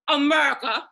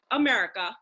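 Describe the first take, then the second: First: Punchy impersonated stand-up delivery; Bernie Mac. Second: Said in the usual way. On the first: Acted. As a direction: boom the word out in a comedian's voice. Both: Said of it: "I say in my Bernie Mac voice".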